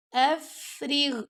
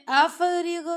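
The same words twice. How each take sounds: First: Slow افرغ, breath flowing through a long ف; hams on ف. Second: افرغ with an echoing bounce after ف and غ; wrong bouncing qalqalah. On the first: Teacher showing students the correct افرغ, breathy held ف. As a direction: let air run on the ف of افرغ, no bounce. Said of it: "ہمس کر رہے ہیں". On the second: Teacher showing students the mistake, افرغ with bounced consonants. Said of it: "دونوں پہ کلکلا ہو گیا نا". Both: Shown as a demonstration.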